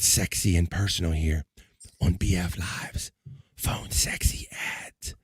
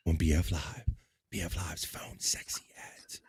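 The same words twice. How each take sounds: First: Slow breathy announcer whisper; sultry whisper. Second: Whisper. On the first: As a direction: purr the segment title slowly. Announces the segment seductively. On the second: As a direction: breathe the title in a whisper. Whispers the segment title. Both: Acted.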